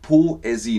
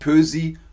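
First: The o and e are two separate vowels. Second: The o and e merge into umlaut ö. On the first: The speaker calls it right. "Nein. Poesie" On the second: The speaker calls it wrong. "nicht Pösi; OE ist doch eigentlich Ö"

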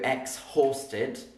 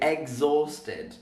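First: The H sound is clearly pronounced. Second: The H sound is left out. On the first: The speaker calls it wrong. "I don't go exhausted" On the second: The speaker calls it right. "I say exhausted. So the H isn't really pronounced"

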